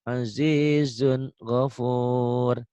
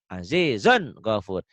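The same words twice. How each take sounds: First: The n sound is said clearly without pressing. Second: The n sound is pressed and jerked forcefully. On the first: It is the normal recitation once the rule is mastered. "nggak usah begitu ya. Cukup" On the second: It is a drill to hear the rule clearly. "Itu latihannya"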